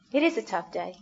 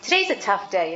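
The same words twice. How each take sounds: First: Gentle emphasis on "is"; stress on is. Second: Said in the usual way. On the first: Shown as a demonstration. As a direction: press the word "is" to confirm.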